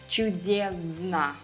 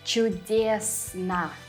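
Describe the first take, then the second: First: The consonant before n sounds like z. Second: The consonant before n sounds like s. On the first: The speaker calls it wrong. "A common mistake is to say" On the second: The speaker calls it right. "it would be correct to say ... sn, not zn"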